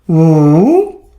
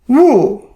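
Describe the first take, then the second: First: It is said with the third tone. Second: It is said with the fourth tone. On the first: "Third tone" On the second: "Fourth tone"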